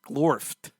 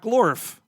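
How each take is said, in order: First: The name ends with a clear T sound. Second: The name ends without a final T sound. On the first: The speaker calls it right. "Gotta enunciate that T at the end of Glorfed" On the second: The speaker calls it wrong. "It's not Glorf"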